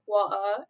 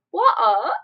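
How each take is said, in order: First: Mildly imitated British "water"; British accent. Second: Loud, exaggerated British "water"; hammed-up British accent, breaking into laughter. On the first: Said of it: "Except when they say, like". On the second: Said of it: "and then they say, like".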